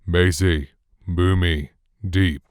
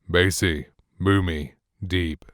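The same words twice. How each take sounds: First: The low bass is fully present and unfiltered. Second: The low bass is gently and smoothly reduced. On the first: "completely neutral and flat" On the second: "bass roll-off enabled"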